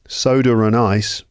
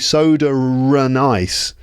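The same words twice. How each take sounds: First: The linking R sound is light and smooth. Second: The linking R sound is strongly emphasized. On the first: The speaker calls it right. "You don't emphasize it" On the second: The speaker calls it wrong. "you don't say"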